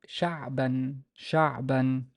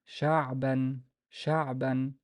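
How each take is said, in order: The two takes are said the same way.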